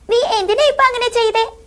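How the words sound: It is said in a small childlike voice. A small character is speaking. "ഒരു കുഞ്ഞു character ആണെങ്കിൽ"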